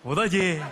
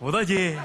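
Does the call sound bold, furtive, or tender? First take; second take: bold; bold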